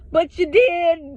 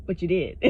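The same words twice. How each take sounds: First: Higher and louder, slowed on DID; drawn out "did" with a sassy fall; emphatic retort. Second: Said in the usual way. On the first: Shown as a demonstration. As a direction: throw "But you did." back at him, stressing "did".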